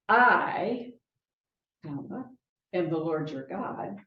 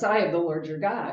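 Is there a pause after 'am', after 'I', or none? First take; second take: after I; none. First: There is a pause after 'I'. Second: It is said without any pause.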